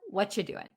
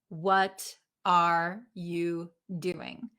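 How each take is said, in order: First: The word 'are' is dropped almost entirely. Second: Every word is pronounced fully and separately. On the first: "Or what you doing?" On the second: "rarely will they pronounce every single word"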